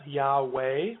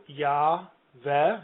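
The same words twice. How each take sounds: First: Yahweh said as YAH-way, with a w; pronunciation demo. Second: Yahweh said as YAH-veh, with a v; pronunciation demo. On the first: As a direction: give Yahweh a w and an -ay ending. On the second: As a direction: draw out Yahweh as two clear syllables, yah-veh. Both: Shown as a demonstration. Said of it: "wondering how this is pronounced".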